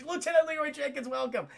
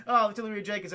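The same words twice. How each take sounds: First: Mock British accent, pitched high; hammed-up British greeting; Leia. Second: Said in the usual way. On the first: Leia greeting an officer, mock British accent. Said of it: "She has a British accent".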